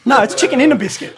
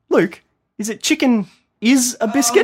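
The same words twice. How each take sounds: First: "in" stressed, raised and louder as the correction; correcting stress. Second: Chicken "is" a biscuit, with "is" in place of "in"; wrong word. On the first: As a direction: lean on "in" to set it right. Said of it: "mocking her". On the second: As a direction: say "is a biscuit" as the mistaken version. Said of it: "I started out mocking her". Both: Retold or imitated.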